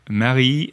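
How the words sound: The name is said with a French accent. "I'll do it in French accent"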